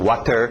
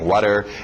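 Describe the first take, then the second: First: The word is pronounced fully and carefully. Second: The word is pronounced reduced and slightly distorted.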